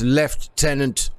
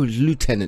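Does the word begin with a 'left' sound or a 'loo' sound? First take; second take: left; loo. First: The first syllable sounds like 'left'. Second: The first syllable sounds like 'loo'. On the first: The speaker calls it right. "No, it's lieutenant. It means it's is the tenant of the general who stood on the left" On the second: The speaker calls it wrong. "oh, lieutenant"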